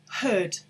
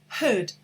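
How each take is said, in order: The two takes are said the same way.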